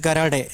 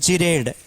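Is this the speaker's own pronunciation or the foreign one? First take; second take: foreign; own. First: It is said the way foreign universities say it. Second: It is said in the speaker's own local way. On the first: This is how some foreign universities say it. "they pronounce it as Garade in some foreign universities" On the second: This is how the speaker's community says it. "We call it as Gered"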